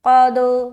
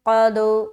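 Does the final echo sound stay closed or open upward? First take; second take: open upward; open upward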